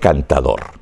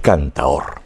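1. La d entre vocales se pronuncia. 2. La d entre vocales se pierde. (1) "No es cantador" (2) "Es cantaor"

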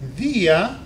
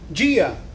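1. La d es una d simple, no africada. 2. La d suena como la j del inglés, africada. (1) "en la nuestra lengua vamos a ficar, va a ficar ese jeitinho" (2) "vocês van a pronunciar en portugués normalmente"

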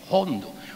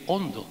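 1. La palabra empieza con una h aspirada, con soplo. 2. La palabra empieza con vocal, sin soplo. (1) "dicen hondo" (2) "Aquí no se dice la gente hondo"

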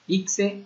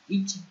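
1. La consonante del medio suena como 'ks'. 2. La consonante del medio suena como 'ch'. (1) "de acuerdo al estado de la República, se pronuncia ICSE o ICHE" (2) "En el sureste así lo pronunciaríamos, como CHE"

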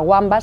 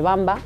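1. El nombre empieza con un sonido W. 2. El nombre empieza con un sonido B. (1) "nunca Wamba" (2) "siempre Bamba, con la B"

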